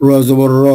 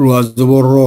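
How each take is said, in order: Both takes have the same delivery.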